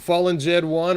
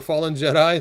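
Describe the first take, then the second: First: The name ends with the two words 'Jed one'. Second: The name ends with the single word 'Jedi'. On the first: "Fallen Jed one or Fallen Jedi" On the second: "it is Fallen Jedi"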